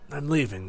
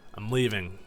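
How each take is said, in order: First: It is said in a put-on Duskull voice. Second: It is said in his own plain voice.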